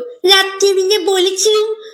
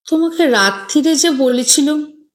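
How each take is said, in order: First: It is said in a mocking, mimicking voice. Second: It is said plainly, without mockery.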